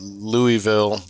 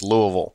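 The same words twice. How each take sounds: First: The name is said clearly, with every syllable. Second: The name is mumbled, with syllables run together. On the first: The speaker calls it wrong. "it's not Louisville either" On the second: The speaker calls it right. "you just kind of mumble it"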